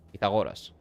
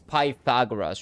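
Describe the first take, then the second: First: The name has a non-English, foreign-style pronunciation. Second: The name has the usual English pronunciation. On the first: "but it's Pythagoras. That's his name. That's how you say it" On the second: "in English it's Pythagoras or some shit"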